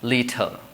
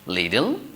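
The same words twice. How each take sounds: First: It is said in a British accent. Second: It is said in an American accent. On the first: "British English, it uh, sounds as like little" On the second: "in American English, it says little"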